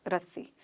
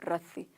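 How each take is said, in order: Both takes have the same delivery.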